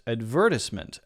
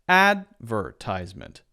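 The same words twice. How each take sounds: First: The stress is on the second syllable. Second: The stress is on the first syllable. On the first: "a stress on the second syllable" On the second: "the first syllable is stressed"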